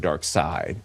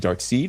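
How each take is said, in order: First: The second part rhymes with the word 'ride'. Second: The second part rhymes with the word 'need'. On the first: "or side like uh, like a sidearm" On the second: "Seed with a like plants"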